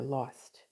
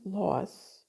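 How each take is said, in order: First: The word ends with a T sound. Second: The word ends with no T sound. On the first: The speaker calls it wrong. "with a T" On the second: The speaker calls it right. "there's no T"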